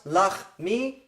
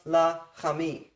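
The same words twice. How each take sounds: First: Lachmi as two beats, lach-mi, no vowel after the ch; two parts. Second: Lachami slowly as la-cha-mi, vowel after the ch; three parts. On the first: Teacher counting the parts of lachmi, two-beat demonstration. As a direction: split lachmi cleanly into lach and mi. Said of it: "this word has two parts". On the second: Teacher counting the parts of lachami, three-beat demonstration. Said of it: "this one has three parts". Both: Shown as a demonstration.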